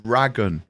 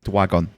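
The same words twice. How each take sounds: First: "Dragon" with a clear, emphasised r; corrected pronunciation. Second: "Dwagon" with a w in place of the r; mispronounced dragon. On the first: Correcting the game's title to Butters, "Dragon" with a strong r. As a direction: lean on the r in "Dragon". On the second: Teasing over the game's title, "Dwagon" said with a w sound. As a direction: say "Dwagon", softening the r into a w. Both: Shown as a demonstration. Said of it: "No, not Yakuza Like a Dwagon".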